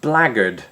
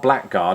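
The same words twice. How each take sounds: First: The word is said in a reduced, shortened form. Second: The word is said fully, just as spelled. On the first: The speaker calls it right. "it sounds like that. Blackguard, right?" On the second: The speaker calls it wrong. "Not blackguard"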